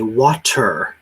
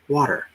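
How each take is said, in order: First: The T is a hard, crisp T sound. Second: The T is soft, almost like a D. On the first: The speaker calls it wrong. "That would be a very hard T" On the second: The speaker calls it right. "It almost sounds like a D"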